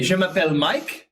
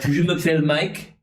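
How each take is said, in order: First: It is said in a plain, relaxed voice. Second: It is said with pouted, rounded lips.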